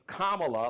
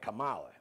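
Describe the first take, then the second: First: The name is said with its standard pronunciation. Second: The name is said with a mocking mispronunciation. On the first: The name is being said respectfully. The speaker calls it right. "put some respect on her name" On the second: The name is being mangled on purpose. The speaker calls it wrong. "Stop with all that Kamala"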